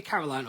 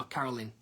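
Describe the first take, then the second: First: "Caroline" ending like "line"; Caroline with long I. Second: "Caroline" ending like "lin"; Caroline as Carolyn. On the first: Singer checking a viewer's name, "Caroline" ending in "-line". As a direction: say "Caroline" to rhyme with "wine". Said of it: "different stages of pronouncing your". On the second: Singer asking a viewer about her name, "Caroline" ending in "-lin". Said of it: "should it be Caroline or Caroline". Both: Shown as a demonstration.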